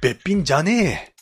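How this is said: It is said in an old man's drawling style. The speaker calls it right. "犯人は60 代なので"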